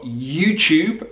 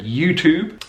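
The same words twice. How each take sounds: First: "YouTube" said you-chube; British "YouTube" with ch in the middle; yod coalescence. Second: "YouTube" said you-toob, no y after t; American "YouTube" with plain t-oo; yod dropping. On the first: Teacher giving learners more examples, British pronunciation. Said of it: "we call that yod coalescence". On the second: Teacher giving learners more examples, American pronunciation. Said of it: "in American English". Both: Shown as a demonstration.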